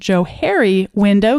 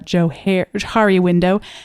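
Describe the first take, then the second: First: The name is said as 'Joe-Harry'. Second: The name is not said as 'Joe-Harry'. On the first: The name joins two first names. The speaker calls it right. "it actually is pronounced Johari window because it was two names put together, Joe and Harry" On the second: This is the common way people say it. The speaker calls it wrong. "most people call that the Johari window"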